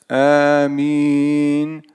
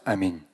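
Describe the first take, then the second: First: The first vowel is drawn out long. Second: The first vowel is short. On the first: "удлиняя проговаривать «Аминь», да, то есть так растягивая" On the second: "а можно просто «Аминь»"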